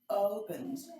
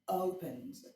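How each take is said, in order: First: The word begins with a soft, open vowel. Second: The same.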